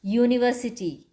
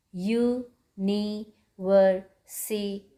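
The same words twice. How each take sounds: First: Said in the usual way. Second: "university" slowly in five parts, u, ni, ver, si, ty; syllable by syllable. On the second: Shown as a demonstration. Teacher counting syllables for children, "university" slowly broken in five. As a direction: pause after each syllable of "university". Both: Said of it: "five syllables".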